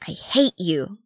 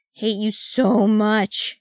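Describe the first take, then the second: First: Small snarl of resentment; understated sulky snarl. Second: Slow, higher, drawn-out moan; long, whiny lament. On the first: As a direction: snarl it at your cousin, without shouting. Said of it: "Gimage snarled". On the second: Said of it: "he moaned". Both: A narrator's reading.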